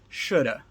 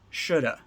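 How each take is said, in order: First: The second word shrinks to a short 'a' vowel. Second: The second word shrinks to a short 'a' vowel.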